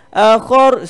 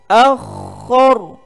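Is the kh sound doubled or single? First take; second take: single; doubled. First: The kh sound is short and single. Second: The kh sound is held and doubled. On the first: The speaker calls it wrong. "Akhar salah" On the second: The speaker calls it right. "Sebab kha ni ada tasydid"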